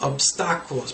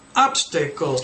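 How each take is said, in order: First: The stress is on the second syllable. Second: The stress is on the first syllable. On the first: The speaker calls it wrong. "because in Spanish they say obstáculos" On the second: The speaker calls it right. "obstacles, not"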